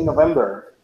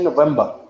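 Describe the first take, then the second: First: It is said in an American accent. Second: It is said in a British accent. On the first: "In American, people say November" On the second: "in British, British people say November"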